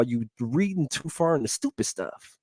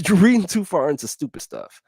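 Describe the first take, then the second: First: Said in the usual way. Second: Chuckling, higher; amused higher retort; laughing repeat. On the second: Real, not acted.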